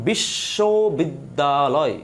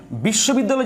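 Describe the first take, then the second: First: "বিশ্ববিদ্যালয়" stretched slowly into separate syllables. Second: Said in the usual way. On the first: Shown as a demonstration. Teacher demonstrating how a word is pronounced, syllable by syllable. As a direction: draw out each syllable of "বিশ্ববিদ্যালয়". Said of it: "আমি একজন উচ্চারণ করছি". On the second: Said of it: "যদি আমি উচ্চারণ করি".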